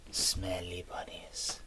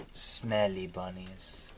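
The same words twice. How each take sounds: First: Breathy whisper of the words "Smelly bunnies". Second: Said in the usual way. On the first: Acted. Repeating the phrase, whispered.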